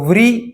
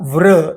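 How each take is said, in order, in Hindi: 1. अक्षर 'ri' ध्वनि पर समाप्त होता है। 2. अक्षर एक छोटी 'ra' ध्वनि पर समाप्त होता है। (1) "हिंदी भाषिक लोग ... इस तरह से उच्चार करते हैं, जो ... संस्कृत व्याकरण दृष्टया गलत है" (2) "हिंदी भाषिक लोग ... इस तरह से उच्चार करते हैं, जो ... संस्कृत व्याकरण दृष्टया गलत है"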